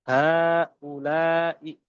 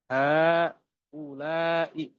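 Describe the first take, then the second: No difference in how they are said.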